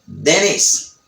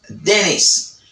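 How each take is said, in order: First: The T after N is dropped, American style. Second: The T after N is dropped, American style.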